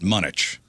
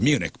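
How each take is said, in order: First: The word is pronounced in an unusual way. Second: The word is pronounced in the standard way. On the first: The speaker calls it wrong. "he he pronounced it Munich" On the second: The speaker calls it right. "It's Munich"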